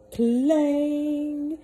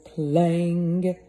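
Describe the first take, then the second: First: Loud, high mimicked clang of a bell. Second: Loud clang at normal pitch; clanging bell. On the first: Narrator to listening kids, a loud high bell clang. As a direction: ring it out like a huge clock bell. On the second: Narrator to listening kids, a loud bell clang. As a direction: strike it like a heavy bell. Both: A narrator's reading.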